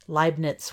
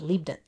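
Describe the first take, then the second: First: The first vowel sounds like 'eye'. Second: The first vowel sounds like 'ee'. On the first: The speaker calls it right. "was pronounced that way" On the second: The speaker calls it wrong. "and not Leibniz"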